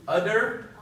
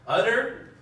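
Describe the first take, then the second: No difference in how they are said.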